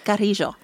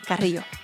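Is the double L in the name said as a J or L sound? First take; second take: J sound; L sound. First: The double L is said as a J sound. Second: The double L is said as an L sound. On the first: This is the proper Spanish way to say the name. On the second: This is the everyday way the name is said.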